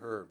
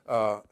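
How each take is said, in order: First: The word begins with an audible H sound. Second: The word begins with no H sound. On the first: This is the speaker's own way of saying it. "I say herbs" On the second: This is how people from the Northeast say it. "how do you say it without the H? ... They say herb"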